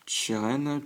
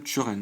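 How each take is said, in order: First: "Chiren" said with a "chi" sound, as shee-REN; first reading. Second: "Churen" said with a "chu" sound, as shu-REN, rounded u; corrected reading. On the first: (prononce « Chiren » avec un i, chi-rène) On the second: (prononce « Churen » avec un u arrondi, chu-rène) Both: Shown as a demonstration. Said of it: "Moi, je dis Churen".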